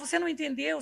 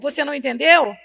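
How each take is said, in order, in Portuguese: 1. É dito com um tom caloroso e carinhoso. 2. É dito com um tom duro, de bronca.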